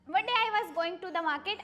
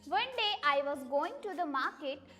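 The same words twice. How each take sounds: First: It is said very fast. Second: It is said at normal speed.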